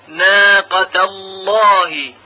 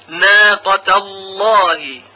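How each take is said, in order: The two takes are said the same way.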